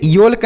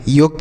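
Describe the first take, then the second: First: योल्क with the L sounded, as yolk; wrong pronunciation yolk. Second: योक with the L silent, rhymes with joke. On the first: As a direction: say योल्क pronouncing the L clearly. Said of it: "तो इसे योल्क नहीं पढ़ेंगे". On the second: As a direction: say योक, drop the L completely. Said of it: "इसका उच्चारण नहीं किया जाएगा". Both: Shown as a demonstration.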